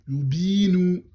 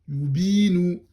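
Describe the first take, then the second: Both takes have the same delivery.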